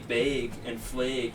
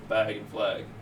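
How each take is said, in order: First: The a vowel is long and drawn out. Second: The a vowel is short and plain. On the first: This is how many locals say it. "They have a long A" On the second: This is how the speaker's home region says it. "instead of"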